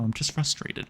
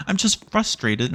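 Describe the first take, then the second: First: "I'm just frustrated" muttered much softer under the breath. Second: "I'm just frustrated" said slowly, higher, drawn out; drawn-out frustration. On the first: Player admitting frustration to himself, soft mutter. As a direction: mutter it to yourself, deflated. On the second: Player repeating his frustration to viewers, slow and drawn out. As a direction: stretch it out, exasperated. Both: Real, not acted.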